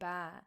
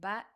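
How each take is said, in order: First: The vowel is held longer. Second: The vowel is short. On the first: "extended for one second longer" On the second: "just with the fatha"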